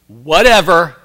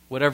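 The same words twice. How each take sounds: First: It is said in a sharp, dismissive tone. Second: It is said in a gentle, polite tone. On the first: The speaker doesn't care and disagrees. The speaker calls it wrong. "I don't care what you think, I disagree with you" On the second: The speaker accepts the other person's view. The speaker calls it right. "The first whatever is, you know, a real polite one"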